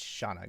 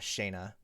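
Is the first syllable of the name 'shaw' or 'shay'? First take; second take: shaw; shay. First: The first syllable sounds like 'shaw'. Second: The first syllable sounds like 'shay'. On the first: The speaker calls it right. "It's Shauna, guys" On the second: The speaker calls it wrong. "I don't know why people call Shauna Shayna"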